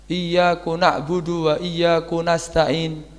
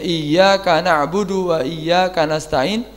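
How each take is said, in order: First: The k in iyyaka is followed by u. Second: The k in iyyaka is followed by a. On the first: The meaning of the verse is not changed. "mengganti dhammahnya enggak apa-apa" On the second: The verse keeps its intended meaning.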